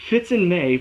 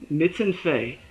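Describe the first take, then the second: First: Said in the usual way. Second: First sounds swapped in "Mitz and Fei"; "Mitz and Fei", a spoonerism for Fitz and May; tongue slip. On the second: Real, not acted. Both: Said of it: "I don't think I'm ever gonna live that one down".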